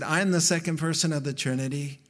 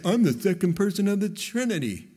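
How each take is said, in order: First: Said in the usual way. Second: Mock bare announcement. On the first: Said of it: "He said". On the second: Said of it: "He didn't just come down and say".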